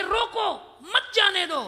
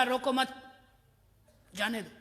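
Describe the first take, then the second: First: High, urgent "रोको", break, then "मत जाने दो" as one command; pause after रोको. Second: "रोको मत" run together, pause before a falling "जाने दो"; pause after मत. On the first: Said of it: "वो इतना घबराया ... चाहता था कि". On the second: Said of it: "हड़बड़ी में बोल गया". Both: Acted.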